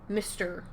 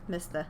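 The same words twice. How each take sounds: First: The final R sound is clearly pronounced. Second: The final R sound is dropped. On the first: "If your accent is rhotic, that means you pronounce the R's" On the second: "if you speak with a non-rhotic parlance"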